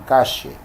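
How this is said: It is said with an Argentine accent. "los argentinos dirían"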